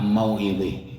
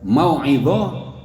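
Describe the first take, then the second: First: The final vowel is tilted toward an 'e' sound. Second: The final vowel is an open 'a' sound.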